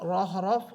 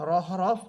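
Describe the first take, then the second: The two takes are said the same way.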